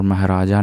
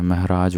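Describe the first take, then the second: First: महाराजा with a final long "aa"; wrong form. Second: महराज ending on the consonant j; correct form. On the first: Teacher rejecting the wrong word, महाराजा ending in "jaa". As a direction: finish महाराजा on an open "jaa". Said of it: "नहीं होता है". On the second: Teacher correcting students, महराज cut off at the final j. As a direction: close महराज on "j", no final vowel. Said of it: "महराज होता है". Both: Shown as a demonstration.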